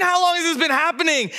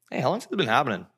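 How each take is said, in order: First: High, incredulous echo of a question; frantic dad. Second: Unhurried, casual question; super calm. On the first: Dad repeating Jesus' question back at him, frantic disbelief. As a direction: throw the question back in high-pitched desperation. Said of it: "This dad's like". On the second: Jesus asking a dad about his seizing son, super calm. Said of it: "Jesus is super calm". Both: Retold or imitated.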